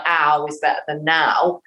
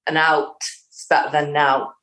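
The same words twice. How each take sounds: First: "ow" said with no T at all, rhyming with "now"; dropped T's. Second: "out" and "nout" said with the final T clearly bitten off; crisp final T's. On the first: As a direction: let the T of "out" vanish so it sounds like "ow". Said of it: "you could see it could sound like". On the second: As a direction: bite the T at the end of "out" and "nout". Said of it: "as long as she bites the T's on the end of out". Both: Shown as a demonstration.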